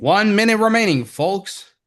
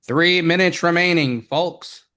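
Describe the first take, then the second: First: Big booming announcer call; loud, high broadcast announcer. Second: Booming broadcast announcer; loud, high announcer call. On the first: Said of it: "let me do my announcer voice again". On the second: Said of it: "let me use my special, like, uh, broadcast tool". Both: Pretend.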